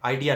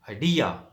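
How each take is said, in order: First: The stress is on the first syllable. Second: The stress is on the second syllable. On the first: The speaker calls it wrong. "Idea नहीं" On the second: The speaker calls it right. "डी पे stress है"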